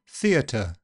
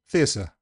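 First: The t is a clear, slightly aspirated t. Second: The t is replaced entirely by an s sound. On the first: "in RP, you'll get an alveolar t with possibly a little bit of aspiration" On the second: "it just goes the whole hog and becomes s"

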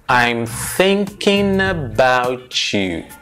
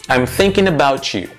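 First: The sentence is said slowly, still linked. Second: The sentence is said at a natural speed. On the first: "Mais devagar"

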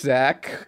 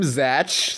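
First: The name ends with a k sound. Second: The name ends with a ch sound. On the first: The speaker calls it right. "Zach and Tara" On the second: The speaker calls it wrong. "Pam just pronounced it Zatch"

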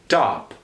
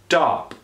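First: The T is released with little puff of air. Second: The T is released with little puff of air.

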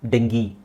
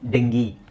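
No difference in how they are said.

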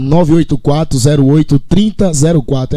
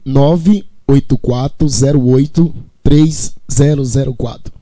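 First: The number is said at normal speed. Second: The number is said slowly.

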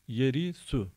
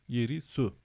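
No difference in how they are said.

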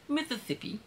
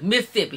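First: It is said in full, with every syllable. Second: It is said clipped, with letters left out.

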